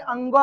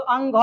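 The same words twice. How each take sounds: First: "अंग" with a nasal, unaspirated ending, like anga; correct unaspirated ending. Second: "अंग" with a breathy gh ending, like angha; wrong aspirated ending. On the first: Teacher correcting students, "अंग" without aspiration. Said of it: "अंग बोलेंगे". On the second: Teacher showing students what not to say, "अंग" wrongly aspirated. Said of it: "तो अंग नहीं बोलेंगे". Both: Shown as a demonstration.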